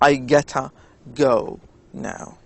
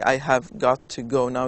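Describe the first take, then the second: First: 'Have got to' is squeezed quickly into 'gotta'. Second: Every word of 'have got to' is fully pronounced. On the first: "when they speak uh, very fast, They say" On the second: "they don't say I have got to go now"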